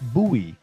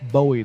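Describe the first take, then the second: First: Not said like the singer's surname. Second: Said like the singer's surname. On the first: The speaker calls it right. "It's Bowie" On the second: The speaker calls it wrong. "not Bowie, like [name] the Boy"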